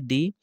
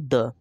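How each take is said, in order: First: It is said with a long 'ee' vowel. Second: It is said with a short 'uh' vowel. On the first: The next word begins with a vowel. "वहां पर हम क्या बोलेंगे" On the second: The next word begins with a consonant. "व्यंजन से आगे लगा हुआ तो इसको हम क्या करेंगे"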